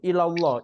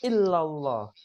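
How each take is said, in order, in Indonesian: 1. Bunyi L dibaca pendek dan tunggal. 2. Bunyi L dibaca panjang dan ganda. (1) "ilallah nggak ada tasdid. Itu salah ya" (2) "Yang illa ini ada tasdid"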